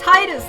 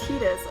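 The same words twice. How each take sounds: First: The first syllable sounds like 'tide'. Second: The first syllable does not sound like 'tide'. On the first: The speaker calls it right. "it's Titus, like the Tide" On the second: The speaker calls it wrong. "he says Titus"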